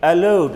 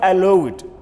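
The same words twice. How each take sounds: First: The ending is a plain d sound. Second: The ending adds an extra id syllable. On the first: The speaker calls it right. "We pronounce it as D" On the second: The speaker calls it wrong. "not allowed"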